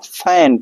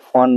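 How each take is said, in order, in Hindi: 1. स्वर एक आगे का ae है। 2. स्वर एक गोल किया हुआ oh है। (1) "इसको फैन पढ़ेंगे" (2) "फ़ोन नहीं पढ़ेंगे"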